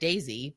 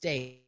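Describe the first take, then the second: First: The name sounds like 'Daisy'. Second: The name sounds like 'Days'. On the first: The speaker calls it wrong. "I always said Daisy, but it's not" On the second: The speaker calls it right. "it's Days"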